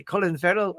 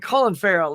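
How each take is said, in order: First: Attempted Irish actor's accent, rounder first vowel; Colin Farrell. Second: Said in the usual way. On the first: Shown as a demonstration. Streamer trying out the actor's own accent, tentative Irish accent. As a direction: try an Irish accent on the name. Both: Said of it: "try to get his ac".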